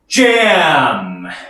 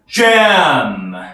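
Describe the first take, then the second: No difference in how they are said.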